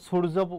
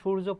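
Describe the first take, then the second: First: It begins with a plain s sound. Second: It begins with an sh sound. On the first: The speaker calls it wrong. "আর দন্তস্ব এখানে তো সূর্য পড়ছি না" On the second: The speaker calls it right. "আমরা আমরা সূর্য পড়ছি"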